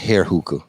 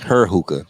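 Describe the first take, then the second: First: The first word sounds like 'hair'. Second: The first word sounds like 'her'. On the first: The speaker calls it wrong. "I'll be saying it wrong. I'll be saying hair hookah" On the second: The speaker calls it right. "but it's her hookah"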